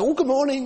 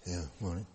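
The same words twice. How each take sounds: First: Bright, much higher, sing-song hello; a breezy, upbeat good morning; cheerful greeting. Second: Lower, much softer, barely bothered; a glum, half-hearted mumbled morning; grunted reply. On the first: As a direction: greet them like a happy neighbour. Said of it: "comes up to you quite cheerfully". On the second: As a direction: grunt it back like a grumpy churchgoer. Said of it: "you sort of grunt back at them". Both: Retold or imitated.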